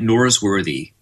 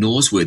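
First: The R sounds are pronounced, American style. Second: The R sounds are dropped, Australian style. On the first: The listener would understand it. The speaker calls it right. "I have to put the R in there" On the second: The listener would not understand it. The speaker calls it wrong. "they don't understand Norsworthy"

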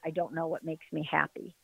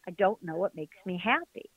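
First: It is said in a defeated, hopeless way. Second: It is said in an open, curious way. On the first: Not knowing is a trap that keeps her stuck. The speaker calls it wrong. "I was paralyzed by one thought" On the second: Not knowing becomes a purpose to explore. The speaker calls it right. "I changed the inflection to"

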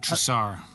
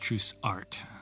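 First: The final t is silent. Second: The final t is clearly sounded. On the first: This is the original French form of the name. "It would be Trussar" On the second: This is the Americanized form of the name. "we Americanize it because there's artwork involved"

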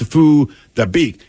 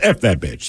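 First: The name is said with Vietnamese sounds. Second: The name sounds like English words. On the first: The speaker calls it right. "you're pronouncing it wrong" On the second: The speaker calls it wrong. "it phonetically, which is what we do"

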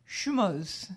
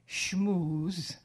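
First: It is said with the Yiddish pronunciation. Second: It is said with the common English pronunciation. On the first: The speaker calls it right. "it's supposed to be schmuz" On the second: The speaker calls it wrong. "you're mispronouncing it. You don't say schmooze like that"

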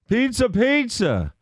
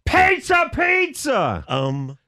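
First: It is said more loudly than before. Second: It is said at the loudest volume.

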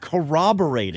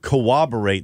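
First: The word begins with a 'cor' sound. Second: The word begins with a 'co-ob' sound. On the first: The speaker calls it right. "No, you couldn't corroborate it" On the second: The speaker calls it wrong. "It is not cooperate"

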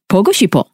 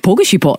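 First: It is said warmly, with feeling. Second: It is said flatly, with no feeling. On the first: The speaker calls it right. "You gotta say it with feeling" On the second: The speaker calls it wrong. "you won't ever say 보고 싶어 like this because that's got no feeling"

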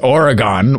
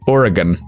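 First: Oregon is said with the host's usual pronunciation. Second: Oregon is said with the local pronunciation. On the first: The speaker calls it wrong. "if I have to hear you mispronounce Oregon as Oregon" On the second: The speaker calls it right. "It's pronounced Oregon"

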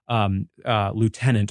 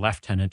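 First: The word is said in an American pronunciation. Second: The word is said in a British pronunciation.

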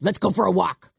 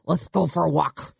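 First: The s sound is pronounced clearly. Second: The s sound is pronounced with a lisp.

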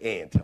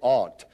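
First: The vowel is the one in 'ant'. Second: The vowel is not the one in 'ant'. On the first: This is how people in western Pennsylvania say it. "up in western Pennsylvania, we say aunt, like a little aunt" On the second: This is how the listeners say it. "you say aunt"

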